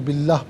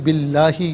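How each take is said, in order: First: The word ends on h with no vowel. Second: The word ends with a final vowel after h. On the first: The reading stops at this word. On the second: The reading continues without a stop.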